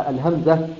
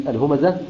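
The two takes are said the same way.

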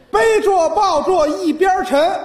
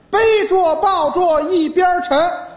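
No difference in how they are said.

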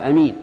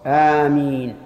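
First: The first vowel is short. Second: The first vowel is long and drawn out. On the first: The speaker calls it wrong. "ويجوز قص الهمزة فيقال أمين، لكنها لغة ضعيفة أيضا" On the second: The speaker calls it right. "والمد هو الصواب"

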